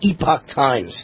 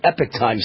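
First: The first word sounds like 'ee-pock'. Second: The first word sounds like 'epic'. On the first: The speaker calls it wrong. "I'm sorry" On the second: The speaker calls it right. "how they pronounce it"

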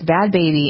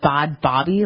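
First: The second word has an 'ay' vowel, like 'Baby'. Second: The second word has an 'ah' vowel, like 'Bobby'. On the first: The speaker calls it right. "But it's Bad Baby" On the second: The speaker calls it wrong. "who I used to pronounce, I thought it was Bad Bobby"

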